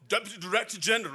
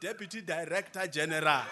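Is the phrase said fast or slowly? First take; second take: fast; slowly. First: The phrase is said quickly. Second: The phrase is said very slowly. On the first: "I say it and that fast" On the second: "I'm going to just say it very slowly"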